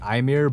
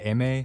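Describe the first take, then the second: First: The name is said in an English style. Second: The name is said in a French style. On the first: "I always say it like Ymir" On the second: "pronounce it like the French way"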